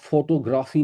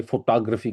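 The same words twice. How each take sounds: First: فوٹوگرافی as FOTO-GRAAFI; Urdu-style pronunciation. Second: فوٹوگرافی as fo-TAA-gra-fee; American pronunciation. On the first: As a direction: keep "foto" whole, then long "graafi" in فوٹوگرافی. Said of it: "جب آپ انگریزی accent میں". (فوٹوگرافی کو سیدھا "فوٹو-گرافی" بولیں) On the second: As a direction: move the beat in فوٹوگرافی onto "TAA", short "gra". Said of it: "American accent میں بولیں گے". (فوٹوگرافی کو امریکی انداز میں "فوٹاگرفی") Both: Shown as a demonstration.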